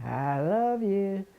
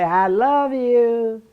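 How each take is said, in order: First: Soft, distant, slow echo of the words. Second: Calling out love. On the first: The echo returning the child's words, soft and far off. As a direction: fade it like an echo off the house. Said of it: "he would say". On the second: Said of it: "And I'd say". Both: Retold or imitated.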